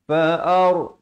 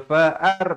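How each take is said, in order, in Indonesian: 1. Bunyi r berat dan tebal. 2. Bunyi r ringan dan tipis. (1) "Ra di sini dibaca tebal" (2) "Jangan baca fa'ar. Ramai yang baca nipis. Salah"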